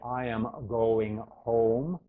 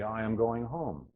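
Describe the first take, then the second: First: The vowels are over-rounded with exaggerated mouth shapes. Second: The vowels are relaxed, like natural everyday talking.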